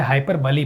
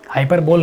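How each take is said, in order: First: हाइपरबली said hai-per-buh-lee; four-syllable हाइपरबली with a final -lee; correct reading. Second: हाइपरबोल said hai-per-bol; three-syllable हाइपरबोल, last part like "bowl"; wrong reading. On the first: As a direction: end हाइपरबली on "buh-lee", not "bol". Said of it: "हाइपरबली पढ़ते हैं इसको". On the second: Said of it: "हाइपरबोल नहीं लिखा है". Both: Shown as a demonstration.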